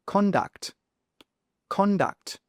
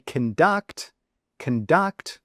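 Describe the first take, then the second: First: "Conduct" with CON high and stressed. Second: "conduct" with the stress on duct. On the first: Teacher modelling the noun's stress. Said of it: "Con is where the stress is". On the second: Teacher showing the verb's stress. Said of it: "with stress on the duct". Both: Shown as a demonstration.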